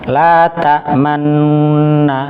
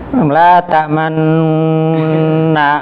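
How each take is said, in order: First: The nasal hum is held for a medium length. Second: The nasal hum is held too long. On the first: The speaker calls it right. "sebagaimana gunnah yang lainnya dua harokat" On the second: The speaker calls it wrong. "nanti jadi empat harokat nanti"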